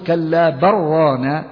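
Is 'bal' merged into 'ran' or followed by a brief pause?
merged. No pause; the l merges into a doubled r. "في حالة الإدراج تقول"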